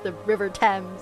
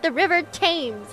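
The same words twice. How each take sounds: First: Thames is said differently from how it is spelled. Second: Thames is said close to how it is spelled. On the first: The speaker calls it right. "it's pronounced the river Thames" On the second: The speaker calls it wrong. "that's not how you pronounce the river's name"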